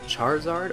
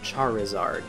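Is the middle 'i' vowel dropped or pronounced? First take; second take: dropped; pronounced. First: The middle i vowel is dropped. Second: The middle i vowel is clearly pronounced.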